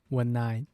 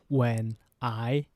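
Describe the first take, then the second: First: The two words run together without a break. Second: The two words are said separately with a break. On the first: The speaker calls it right. "two words are linked together" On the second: The speaker calls it wrong. "not when I"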